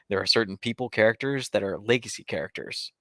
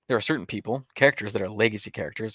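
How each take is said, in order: First: It runs on with no clear pause after "people". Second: It has a clear pause after "people". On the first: The speaker calls it wrong. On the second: The speaker calls it right.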